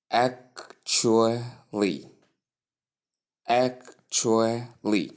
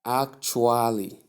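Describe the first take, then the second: First: Slow ACTUALLY as ak-choo-lee; correct pronunciation. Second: ACTUALLY said as ak-too-ah-lee, no "ch"; drawn-out "actually" with a plain t and full "a"; common mispronunciation. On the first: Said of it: "is pronounced". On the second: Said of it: "often pronounced as". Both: Shown as a demonstration.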